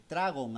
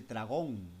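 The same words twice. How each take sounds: First: "Tragón" misread as TRA-gon, stress on TRA; stress on first syllable. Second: "Tragón" with stress on GÓN, drawn out; stress on last syllable. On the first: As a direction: read "Tragón" as if it had no written accent, TRA-gon. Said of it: "no dice Tragón. Para que diga Tragón, tiene que tener tilde". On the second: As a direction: lean slowly on the final syllable of "Tragón". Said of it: "Para que diga Tragón, tiene que tener tilde en la O". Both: Shown as a demonstration.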